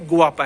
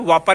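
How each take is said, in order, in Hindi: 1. शब्द gw ध्वनि से शुरू होता है। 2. शब्द एक सादी w ध्वनि से शुरू होता है। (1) "गुआपा है" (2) "वापा नहीं है"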